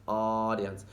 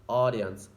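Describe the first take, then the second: The two takes are said the same way.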